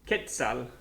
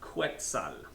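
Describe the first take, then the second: First: The qu is a plain k sound. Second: The qu is a kw sound. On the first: The speaker calls it right. "this is Quetzal" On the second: The speaker calls it wrong. "not Quetzal"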